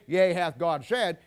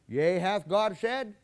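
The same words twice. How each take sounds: First: The voice falls at the end, like a statement. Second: The voice rises at the end, like a question. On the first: It is a statement. "he didn't say" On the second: It is a question. "See the voice inflection? It was a question"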